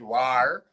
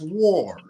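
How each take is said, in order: First: The vowel is a long A sound. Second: The vowel is not a long A sound. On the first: The speaker calls it wrong. "there's a long A in some parts of the Caribbean and we call it war" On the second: The speaker calls it right. "most of the English speaking world pronounce the word as war"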